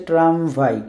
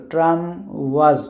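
First: ট্রামভাই with W as v; Polish reading. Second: ট্রাম ওয়াজ with a W sound; English reading. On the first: Teacher corrects to Polish, v in ট্রামভাই. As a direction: put a clear v in ট্রামভাই. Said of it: "এটা Polish হচ্ছে". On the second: Teacher asks how English would read it, w in ট্রাম ওয়াজ. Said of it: "আমরা ইংরেজিতে পড়লে কি হইতো". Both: Shown as a demonstration.

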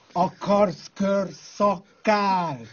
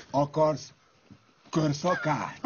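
First: Very slow, stretched out question; lazy taunting repeat of the offer; slow mocking drawl. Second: Said in the usual way. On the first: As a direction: drag every syllable teasingly. Mock offer, repeated drawn out.

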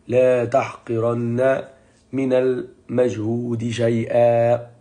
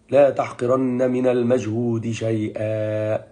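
First: "لا" stressed and rising, each word drawn out very slowly; slower stressed repeat. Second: Slow quote. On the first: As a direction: lean hard on "لا" and let every word sink in. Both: Shown as a demonstration.

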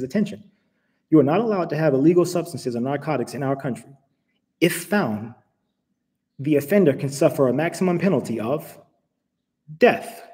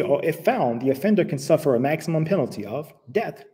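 First: Automated announcement voice. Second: Said in the usual way. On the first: Retold or imitated. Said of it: "this is the automated voice". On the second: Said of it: "And when they say".

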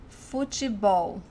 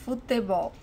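First: Futebol with te softened to chee, said slowly; standard pronunciation. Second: Futebol with a hard T in te; regional pronunciation. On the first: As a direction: say Futebol as "foo-chee-BOW". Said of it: "In some parts of Brazil". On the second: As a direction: say Futebol as "foo-teh-BOW". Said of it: "they pronounce futebol". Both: Shown as a demonstration.

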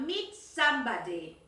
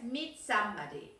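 First: "meet somebody" said slowly, "meet" stressed; "meet" leaned on, no "with"; slow correct model. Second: Said in the usual way. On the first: Shown as a demonstration. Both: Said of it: "No es meet with".

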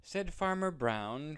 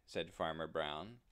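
First: Higher and louder narrating; lively, raised narration. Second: Said in the usual way. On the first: A narrator's reading. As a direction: announce the farmer brightly.

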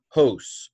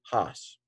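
First: "hos" said with a long o, like "hose"; long-o pronunciation. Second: "has" said as "hahs", open vowel; alternative short-o pronunciation. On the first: Teacher models Greek for learners, "hos" with long o. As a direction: say "hos" to rhyme with "dose". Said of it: "although some, some people say has". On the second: Teacher gives others' variant to learners, "has" as "hahs". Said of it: "some people say has". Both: Shown as a demonstration.

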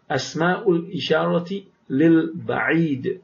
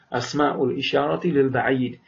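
First: Slow model reading. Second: Said in the usual way. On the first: Shown as a demonstration. Teacher models the phrase for students, slowly. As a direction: spell out each syllable of Asma'ul isharati lil ba'id slowly. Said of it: "teacher models Arabic phrase slowly". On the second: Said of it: "teacher repeats phrase normally".

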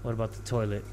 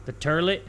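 First: Said in the usual way. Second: "turlet", goofy r-coloured first syllable; toilet as "turlet". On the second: Pretend. Gamer jokingly checking the bathroom, playfully mispronounced "turlet". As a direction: say "turlet" with an er vowel, rising like a question.

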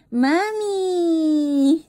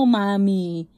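First: High, whiny mock wail of mami; playful crying toddler call; imitating a baby's cry. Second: Said in the usual way. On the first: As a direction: mimic a toddler crying for mom, pitched up. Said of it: "Pag umiiyak ka". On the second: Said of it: "sinasabi mo".

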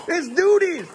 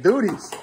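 First: "It's duties" pitched high, in a squeaky mock voice. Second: Said in the usual way. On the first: Dad mimicking his own video for the laughing kid, squeaky. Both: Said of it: "me saying".

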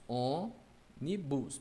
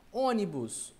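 First: ÔNIBUS slowly broken as ô-ni-bus; syllable by syllable. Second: Said in the usual way. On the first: Shown as a demonstration. Teacher separating the word, ônibus syllable by syllable. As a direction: pull ônibus apart with pauses. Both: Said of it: "Vamos separar ônibus".

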